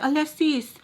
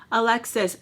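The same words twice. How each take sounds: First: "Alexis" said as "ah-leh-SEES"; higher "Alexis" with a long "sees" ending; switched-up name. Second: Said in the usual way. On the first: Shown as a demonstration. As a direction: imitate him saying "Alexis" as "Aleh-sees". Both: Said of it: "he did switch it up".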